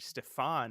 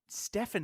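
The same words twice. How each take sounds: First: The name is pronounced the Western European way. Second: The name is pronounced the Swedish way. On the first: "Stefan is um more like the Western European pronunciation" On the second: "Stefan is the Swedish pronunciation"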